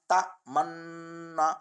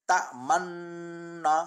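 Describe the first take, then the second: The two takes are said the same way.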